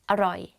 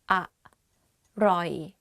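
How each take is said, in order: First: The word is said quickly, syllables run together. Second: The word is said slowly, syllable by syllable.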